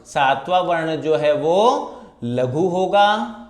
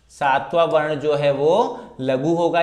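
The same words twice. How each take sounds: First: Slow emphatic rule. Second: Said in the usual way. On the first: Shown as a demonstration. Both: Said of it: "दूसरे और चौथे चरण में सातवां वर्ण".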